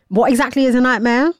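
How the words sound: It is read in a rude, snippy tone. The speaker calls it right. "in a ruder voice"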